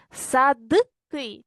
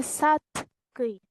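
First: "Садки" with a clearly voiced д before к; voiced consonant. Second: "садки" with т instead of д; devoiced consonant. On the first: Teacher offering pupils the first choice, voiced consonant. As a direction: sound out д in "Садки", slowly. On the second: Teacher offering pupils the second choice, devoiced consonant. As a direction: say "садки" slowly as sat-ky. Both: Shown as a demonstration. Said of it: "чи садки?".

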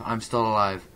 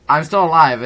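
First: Said in the usual way. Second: Shouted, higher and much louder; excited shout. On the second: Real, not acted. Gamer shouting at his mangled ragdoll, excited shout. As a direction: yell it in amazed triumph.

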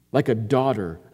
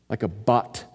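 First: Said in the usual way. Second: "bat" said as the Hebrew word for daughter. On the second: Shown as a demonstration. Preacher giving the congregation the Hebrew word, stressing "bat". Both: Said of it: "In Hebrew, the word for daughter is bat".

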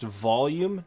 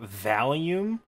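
First: "volume" said slowly with an O, VOL-yoom; correct "volume". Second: "volume" said like Valium, with a short A; mispronounced "volume". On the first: Explaining the word for loudness, "volume" said VOL-yum. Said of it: "is pronounced volume". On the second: Showing a childhood mistake, "volume" said VAL-yum. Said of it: "not volume". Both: Shown as a demonstration.

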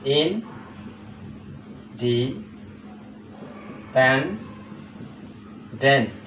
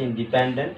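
First: "ইনডিপেন্ডেন্ট" extremely slow, long silences between syllables. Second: Said in the usual way. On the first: Shown as a demonstration. Teacher breaking the word up for students, very slowly. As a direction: leave a long pause after each syllable of "ইনডিপেন্ডেন্ট". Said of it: "খেয়াল করো". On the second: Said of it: "ইন্ডিপেন্ডেন্ট বলা হয় আর কি".

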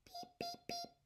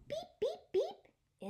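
First: Very soft, high horn beeps; tiny quiet beeps to end the book; a gentle high beep beep beep. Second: Squeaky high toy-horn beeps; sing-song high beep beep beep. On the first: Closing honks of story. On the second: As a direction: beep like a tiny truck horn, bright and high. Toy truck honks in story. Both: Acted.

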